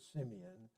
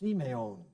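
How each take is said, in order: First: The name has its familiar everyday American pronunciation. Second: The name follows the reading guide's vowel rules. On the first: This is how everyone usually says it. "If we followed the rules, we would not pronounce it Simeon" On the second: This is how the reading rules would have it. "We would pronounce it Simeon"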